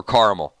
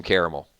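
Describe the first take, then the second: First: Caramel said as "CAR-mul"; alternative caramel pronunciation. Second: Caramel said as "CARE-uh-mel"; three-syllable caramel. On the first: Host corrects himself unsure of the word, caramel as "CAR-mul". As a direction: say caramel with "ah", in two syllables. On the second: Host tells viewers his love of it, caramel as "CARE-uh-mel". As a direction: give caramel its full middle syllable, with an "air" vowel. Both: Shown as a demonstration. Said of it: "I don't know how to say the word".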